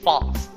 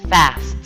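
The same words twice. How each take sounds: First: It is said in a British accent. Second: It is said in an American accent.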